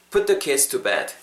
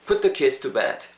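No difference in how they are said.

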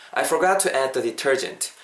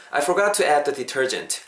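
Both takes have the same delivery.

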